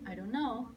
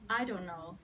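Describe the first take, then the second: First: It sounds curious, like genuinely wanting to know. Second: It sounds annoyed, like rejecting the question.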